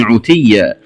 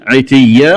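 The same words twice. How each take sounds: First: عتيا said "utiyya"; damma on ayn. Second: Said in the usual way. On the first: Shown as a demonstration. Teacher showing the variant, عتيا with opening u. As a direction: round the first vowel of عتيا to u. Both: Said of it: "قرأها بضم العين".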